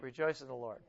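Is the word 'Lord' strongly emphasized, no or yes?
no. It is said without special stress on Lord.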